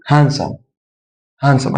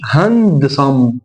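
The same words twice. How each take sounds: First: "هانسم" said as "han-som", no D; silent D. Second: "هاندسم" with a full D, "han-duh-some"; sounded D. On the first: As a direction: drop the D from "هانسم". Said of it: "اكن الدي مش موجود". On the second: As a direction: pronounce the D clearly inside "هاندسم". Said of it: "فما اقولش هاندسم". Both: Shown as a demonstration.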